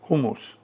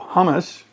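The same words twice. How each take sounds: First: The word is said with a Turkish pronunciation. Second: The word is said with an American pronunciation. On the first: "When I was in Turkey, they pronounced it" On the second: "the American pronunciation"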